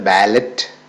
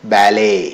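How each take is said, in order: First: The final t sound is pronounced. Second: The final t sound is silent. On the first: The speaker calls it wrong. "എന്നല്ല പറയുക" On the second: The speaker calls it right. "ഇങ്ങനെയാണ് pronounce ചെയ്യുക"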